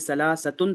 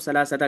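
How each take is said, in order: First: The word ends with an 'un' sound. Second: The word ends with a short 'a' sound. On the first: "ये देखिए सलासतुन था ना" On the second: "इस ता मुदव्वरा पे हम ज़बर लगाएंगे"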